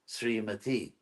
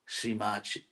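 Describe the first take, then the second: First: The syllable before the end has a plain t. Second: The syllable before the end has a ch sound. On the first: "the feminine for Sriman is Srimati" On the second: "the best one is Brazil"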